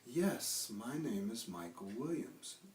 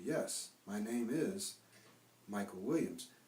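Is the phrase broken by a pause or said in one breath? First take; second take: one breath; pause. First: The phrase is linked in one breath. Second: The phrase is broken up with a stop. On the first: The speaker calls it right. "I'm saying it almost in one breath" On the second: The speaker calls it wrong. "I'm not saying"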